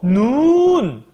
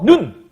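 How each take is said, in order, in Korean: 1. 모음을 길게 발음해요. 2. 모음을 짧게 발음해요. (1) "이건 긴 거야" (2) "이건 짧은 거고"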